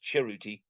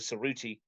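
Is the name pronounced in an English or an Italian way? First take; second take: Italian; English. First: The name is said with Italian-style sounds. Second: The name is said with English-style sounds. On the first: This is how the player now wants it said. "like the Italian way" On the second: This is how the father's name is said at school. "his dad is called Mister Cerruti at his school"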